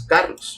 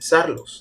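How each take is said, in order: First: The word begins with a K sound. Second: The word begins with an S sound. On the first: The speaker calls it right. "One of them is like the letter K" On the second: The speaker calls it wrong. "You don't say Sarlos"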